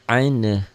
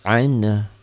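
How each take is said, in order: Both takes have the same delivery.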